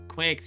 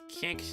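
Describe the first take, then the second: First: The name begins with a kw sound. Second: The name begins with a plain k sound. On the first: The speaker calls it wrong. "It's not Quix. It would have to be Q U to be Quix" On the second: The speaker calls it right. "It's Kix"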